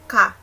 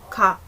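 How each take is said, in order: First: The first consonant is a full K sound. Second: The first consonant falls between G and K. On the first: The speaker calls it wrong. "Hindi rin siya ka" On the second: The speaker calls it right. "somewhere between G and K"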